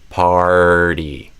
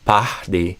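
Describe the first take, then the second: First: The first vowel is followed by an R sound. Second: The first vowel has no R sound after it. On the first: The speaker calls it right. "I'm doing er, party" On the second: The speaker calls it wrong. "I'm not saying pah, pahdi"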